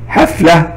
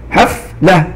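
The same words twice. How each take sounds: First: Said in the usual way. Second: "حفلة" in two beats, "حف" then "لة"; split into syllables. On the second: Shown as a demonstration. Teacher demonstrating the silent ف to students, "حفلة" split as "حف - لة". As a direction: pause inside "حفلة" right after the silent ف. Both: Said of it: "الحرف الساكن في حرف الفاء فنقول".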